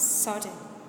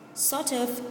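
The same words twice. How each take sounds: First: The words run together in a reduced form. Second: Each word is said separately and in full.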